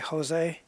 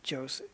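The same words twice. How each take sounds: First: The name begins with an H sound. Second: The name begins with a J sound. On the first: This is the Spanish way of saying it. "in Spanish that the J is pronounced like a H" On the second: This is the Portuguese way of saying it. "in Brazil where they speak Portuguese, it's pronounced like a J"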